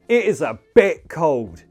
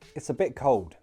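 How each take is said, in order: First: The word bit is strongly stressed. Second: It is said evenly with no special stress. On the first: It is very cold. "if we emphasize that word bit" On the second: It is slightly colder than normal. "Without special intonation"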